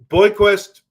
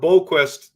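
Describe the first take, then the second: First: The first syllable sounds like 'boy'. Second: The first syllable sounds like 'bo'. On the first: The speaker calls it wrong. "not Boy" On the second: The speaker calls it right. "that's his name"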